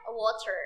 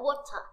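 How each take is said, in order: First: It is said with an American accent, with R. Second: It is said with a British accent, no R.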